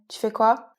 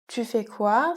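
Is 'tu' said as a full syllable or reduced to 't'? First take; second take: reduced; full syllable. First: The word 'tu' shrinks to a bare 't' sound. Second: The word 'tu' is said as a full syllable.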